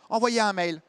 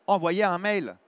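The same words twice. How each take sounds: First: Curt secretary shooing him away; cold dismissive fall on envoyez; dismissive brush-off. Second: Said in the usual way. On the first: Retold or imitated. Secretary brushing off a caller, dismissive.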